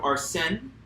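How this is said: The name is said with a French pronunciation. The speaker calls it right. "that's the proper French pronunciation"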